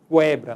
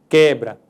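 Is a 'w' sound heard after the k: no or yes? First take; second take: yes; no. First: A 'w' sound follows the k sound. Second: No 'w' sound follows the k sound. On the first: The speaker calls it wrong. "nós não dizemos quebra" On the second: The speaker calls it right. "nós dizemos quebra"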